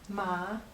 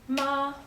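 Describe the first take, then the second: First: The pitch rises from middle to high. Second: The pitch stays high and level. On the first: It means hemp. "Ma is hemp" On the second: It means mother. "Ma is mother"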